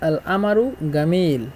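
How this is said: Egyptian dialect, with a glottal stop and hard g.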